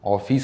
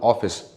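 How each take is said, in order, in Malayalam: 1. രണ്ടാമത്തെ അക്ഷരത്തിന് ഊന്നൽ നൽകി നീട്ടുന്നു. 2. ആദ്യത്തെ അക്ഷരത്തിന് ഊന്നൽ. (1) "നമ്മൾ ഈ രണ്ടാമത്തെ സിലബിളിൽ ഓഫീസ് എന്ന് നീട്ടി പറയാൻ ചാൻസ് ഉണ്ട്" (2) "ഇവിടെയാണ് സ്ട്രെസ് ചെയ്യേണ്ടത് ആദ്യത്തെ സിലബിളിൽ"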